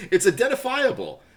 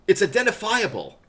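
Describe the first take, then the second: No difference in how they are said.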